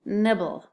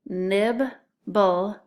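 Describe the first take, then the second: First: Said in the usual way. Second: NIBBLE as two separate beats, "Nib, bull"; split into syllables. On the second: Shown as a demonstration. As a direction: say "Nib", pause, then "bull". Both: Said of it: "listen closely to those syllables".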